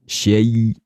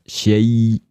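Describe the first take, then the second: Both takes have the same delivery.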